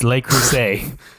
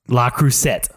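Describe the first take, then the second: First: The name ends with a 'say' sound. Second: The name ends with a 'sett' sound. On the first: The speaker calls it right. "It's Le Creuset" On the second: The speaker calls it wrong. "What'd you say last night"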